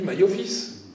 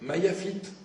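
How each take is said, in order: First: It is said in an Ashkenazi Hebrew accent. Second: It is said in a standard Hebrew accent.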